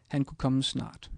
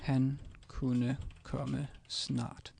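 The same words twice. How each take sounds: First: Said in the usual way. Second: Very slow, every word set apart; slow careful Danish. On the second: Shown as a demonstration. Teacher modelling the sentence for a learner, slowly. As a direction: spell out "Han kunne komme snart" slowly for a learner. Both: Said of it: "And this would be".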